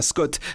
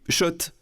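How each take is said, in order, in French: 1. Le nom commence par un son 'sk'. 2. Le nom commence par un son 'sh'. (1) "ça fait des années qu'on prononce mal la marque" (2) "Oui, Schott"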